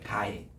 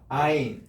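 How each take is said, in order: First: The word begins with a g sound. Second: The word begins with a vowel sound. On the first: This is how Arabic speakers call it. "아랍어에 쓰는 이거를 가인이라고 부르는 거예요" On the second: This is how we call the letter. "우리는 아인이지만"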